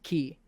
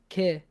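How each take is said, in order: First: The vowel sounds like 'ee'. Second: The vowel sounds like 'eh'. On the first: The speaker calls it right. "and it's ki" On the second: The speaker calls it wrong. "So you're saying ke"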